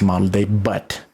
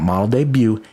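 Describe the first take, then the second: First: The word debut ends with a clear t sound. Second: The word debut ends without a t sound. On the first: The speaker calls it right. "It's model day butt" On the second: The speaker calls it wrong. "It's not model debut"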